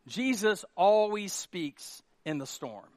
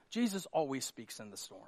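First: Slow, spaced-out "Jesus always speaks"; deliberate emphasis. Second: Lower, softer, understated delivery; hushed statement. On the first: Pastor repeating the point to congregation, deliberate emphasis on "always". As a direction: stretch "always speaks" slowly for weight. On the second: Pastor telling congregation "let me say this", hushed statement. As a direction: state it quietly, letting it sink in. Repeats line with growing emphasis. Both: Real, not acted.

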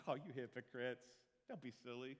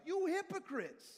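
First: Tut-tut them lightly; a gentle, harmless tut-tut to the hypocrites; mild mock scolding. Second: Loud, high and slow outraged shout; thundering angry denunciation; furious rebuke. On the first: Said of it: "do you think Jesus is like". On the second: Retold or imitated. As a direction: hurl the words at them in fury. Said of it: "No, he was like".

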